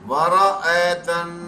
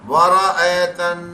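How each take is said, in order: No difference in how they are said.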